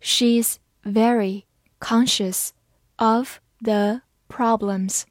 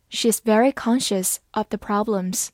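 First: Slow, careful read-aloud; each word spaced out slowly. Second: Said in the usual way. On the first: Shown as a demonstration. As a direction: read it slowly so learners can follow. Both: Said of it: "好，慢慢来读".

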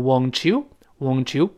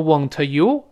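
First: "won't you" blended into won-chew; "won't you" run together with a ch; linked pronunciation. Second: "won't you" as two separate words; "won't you" unblended, wont-yoo; unlinked pronunciation. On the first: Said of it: "而是读成". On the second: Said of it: "不读成". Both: Shown as a demonstration.

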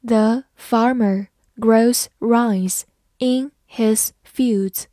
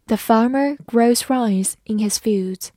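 First: Slow, careful read of The farmer grows rice in his fields. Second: Said in the usual way. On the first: Shown as a demonstration. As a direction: read slowly word by word. (慢慢地朗读) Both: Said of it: "好，慢慢来读。".

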